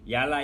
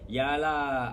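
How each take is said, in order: First: It is said in an annoyed tone. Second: It is said in a sulky tone.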